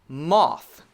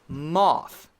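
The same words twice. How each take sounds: Both takes have the same delivery.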